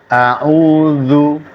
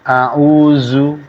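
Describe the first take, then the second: First: The consonant is made with tongue touching upper teeth. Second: The consonant is made without tongue touching upper teeth. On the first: The speaker calls it right. "Kalau tepat ditempelkan gigi atasnya ke ujung lidah" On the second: The speaker calls it wrong. "tidak akan keluar a'udzu"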